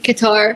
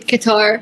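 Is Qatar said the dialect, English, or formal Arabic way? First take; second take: English; English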